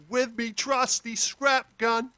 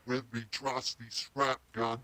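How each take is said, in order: First: Slow, high Australian character voice, unprocessed; put-on Australian accent. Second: Low, soft pitch-shifted Australian character; deep electronically lowered voice, kept quiet. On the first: Playing the vocal by itself, slow high Australian accent. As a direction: raw Australian-accented take, pitched up high. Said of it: "what it sounds like by itself". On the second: Acted. Demonstrating the pitch effect on the vocal, pitched down low. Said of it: "we just pitched it down".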